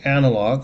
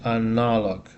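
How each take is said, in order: First: The stress is on the first syllable. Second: The stress is not on the first syllable. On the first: This is the English pronunciation. "In English, it's the first syllable straight" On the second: This is the Russian pronunciation. "In Russian is analog"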